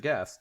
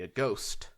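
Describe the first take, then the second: First: The word ends with a 'gast' sound. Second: The word ends with a 'ghost' sound. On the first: "I didn't want to pronounce it aghast" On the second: "so I pronounced it a ghost"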